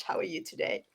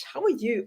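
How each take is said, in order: First: Put-on playful South African accent, pitched up and soft. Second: Said in the usual way. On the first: Host greeting her South African co-host in a mock South African accent. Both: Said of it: "I'm understanding that South African accent".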